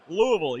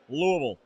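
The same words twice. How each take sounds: First: The name is said clearly, syllable by syllable. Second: The name is mumbled, as if through marbles.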